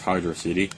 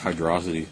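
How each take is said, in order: First: It is said as two words, hydro city. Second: It is said as one word, like velocity. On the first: It names a city of water. "it describes a place if it's Hydro City" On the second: It blends water with velocity. "That just makes it sound like velocity and water"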